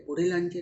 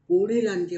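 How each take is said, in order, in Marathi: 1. पहिला स्वर ह्रस्व ठेवला जातो. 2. पहिला स्वर दीर्घ उच्चारला जातो. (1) "नाही म्हटले" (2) "पू हा ऱ्हस्व नाही आहे, दीर्घ आहे"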